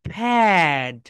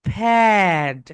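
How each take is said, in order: The two takes are said the same way.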